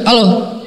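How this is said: It is said roughly, in a harsh voice.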